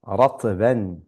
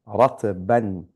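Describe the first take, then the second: The two takes are said the same way.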